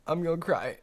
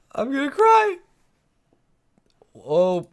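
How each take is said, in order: First: Said in the usual way. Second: Very high, loud tearful squeal; mock crying wail. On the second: Streamer to viewers as stream drops, high mock-crying wail. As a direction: wail it as if about to burst into tears.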